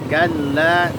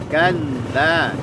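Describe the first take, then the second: The two takes are said the same way.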